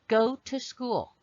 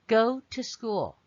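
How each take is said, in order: The two takes are said the same way.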